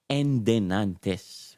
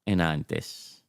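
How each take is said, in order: First: The word is said in its longer form. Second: The word is said in a shortened form. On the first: This is the older form the grandparents used. "El palabra endenantes" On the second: This is the shortcut people use now. "Kaya lang enantes"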